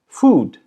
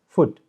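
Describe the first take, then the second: First: The vowel is held long. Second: The vowel is clipped short.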